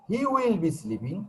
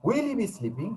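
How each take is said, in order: First: Slow, high "He will", dropping afterwards; affirmative statement. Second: High stressed "Will", rise on "sleeping"; interrogative intonation. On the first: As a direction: model "He will be sleeping" slowly as a statement. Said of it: "affirmative থেকে interrogative". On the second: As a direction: model question, dipping then lifting at the end. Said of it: "উচ্চারণের সময় স্টেজ দিতে হবে". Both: Shown as a demonstration.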